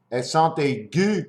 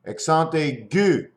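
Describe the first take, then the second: No difference in how they are said.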